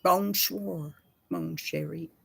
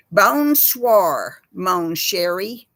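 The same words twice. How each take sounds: First: Softer, lighter French greeting; fading French murmur. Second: Louder Texan-accented French greeting; hammed-up French said in a Texas twang; mock French. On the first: After a Texan version, the French greeting said more gently. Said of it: "That's it". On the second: Showing how French sounds from a Texan. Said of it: "I'll give you an example". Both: Shown as a demonstration.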